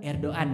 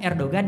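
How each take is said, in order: First: The g sound in the middle is silent. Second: The g sound in the middle is pronounced. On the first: This is how Turkish people say it. The speaker calls it right. "Orang mereka bilang Erdogan" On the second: This is how locals read the written spelling. The speaker calls it wrong. "kalau kita kalau ngomong kan Erdogan ya, itu salah itu logatnya"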